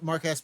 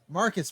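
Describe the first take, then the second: First: The name is split as Mark Ass. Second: The name is said smoothly as Marcus. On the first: The speaker calls it wrong. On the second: The speaker calls it right.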